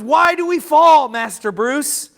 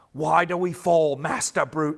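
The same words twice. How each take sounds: First: Put-on own voice, no accent. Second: A half-hearted attempt at Alfred the butler's accent; lightly put-on butler accent, soon given up; weird butler accent. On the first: Preacher retells the Batman Begins line in his own voice, loud. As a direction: quote dropping the butler accent, louder and higher. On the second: Quoting Alfred the butler to the congregation in a weak put-on accent. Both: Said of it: "I'm gonna stop trying to do the weird accent".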